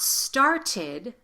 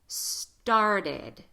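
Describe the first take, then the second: First: The t is a crisp, released t. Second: The t is a quick d-like tap. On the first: The speaker calls it wrong. "Not started" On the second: The speaker calls it right. "this T"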